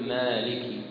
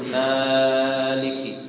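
First: The first vowel is held for two counts. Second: The first vowel is stretched well beyond two counts. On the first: The speaker calls it right. "تقول مالكي" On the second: The speaker calls it wrong. "أو لا يزيدها كذلك"

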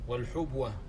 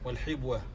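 First: The first vowel is u. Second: The first vowel is i. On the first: "بضم الحاء" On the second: "وكسرها"

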